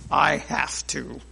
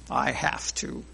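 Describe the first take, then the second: First: It is said in a grudging tone. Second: It is said in a grudging tone.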